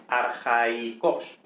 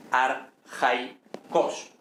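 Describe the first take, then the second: First: Arjaicos very slow, a and i split apart; right take: arjaicos with a hiatus. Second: Arjaicos slow, with ai as one diphthong; wrong take: arjaicos with a diphthong; three syllables. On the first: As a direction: stretch arjaicos, ar-ja-i-cos. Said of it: "I, en sílabas separadas". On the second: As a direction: say arjaicos slowly, ar-jai-cos. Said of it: "tres sílabas". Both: Shown as a demonstration.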